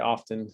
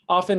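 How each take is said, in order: First: The word is said with careful, full enunciation. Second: The word is said in a quick, reduced way. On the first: This is the clearer form used when teaching. "enunciate a little bit more when I'm teaching, so I will say often" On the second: This is how fast speakers say it. "people who are speaking more rapidly will say it"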